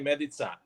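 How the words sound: The surname is said with Croatian pronunciation. This is the family's original way of saying it. "the Croatian way"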